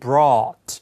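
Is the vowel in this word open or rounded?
open. The vowel is open, close to 'ah'. "북미 영어는 brought 이렇게 아예 가깝게 발음을 하지만"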